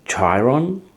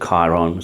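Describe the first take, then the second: First: The name is pronounced the American way. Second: The name is pronounced the Australian way. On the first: "I think you pronounce it" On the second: "we pronounce it"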